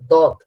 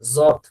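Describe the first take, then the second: First: It begins with a clean d sound. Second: It begins with a buzzing z-like sound. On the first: The speaker calls it right. "জ এর কোনো উচ্চারণ এখানে নেই। এটা হলো দদ।" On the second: The speaker calls it wrong. "কেউ কেউ দ বলার সময় অনেকটা জদ শোনা যাচ্ছে। জদ বলা যাবে না।"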